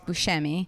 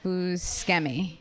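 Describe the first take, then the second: First: The name is pronounced in the Italian way. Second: The name is pronounced in an English way. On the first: "that's the Italian way to say it" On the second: "he pronounces it"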